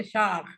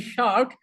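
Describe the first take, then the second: First: "shark" with a throaty Scouse kh ending; Liverpool accent. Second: Said in the usual way. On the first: Shown as a demonstration. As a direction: finish "shark" on kh, Liverpool style. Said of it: "in Liverpool they say shark". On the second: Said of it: "It's supposed to be shark".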